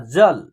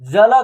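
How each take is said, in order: First: The word ends on a bare consonant. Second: The last consonant is followed by a vowel. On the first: The speaker calls it right. "इसका शुद्ध उच्चारण क्या हो रहा है ना" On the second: The speaker calls it wrong. "अगर इसको हम लोग जल जल करेंगे तो उच्चारण गलत हो जाएगा"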